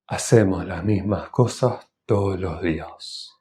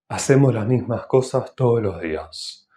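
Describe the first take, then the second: First: The sentence is spoken a little more slowly. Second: The sentence is spoken at normal conversational speed. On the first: "Un poco más lento" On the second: "Estoy hablando a una velocidad normal"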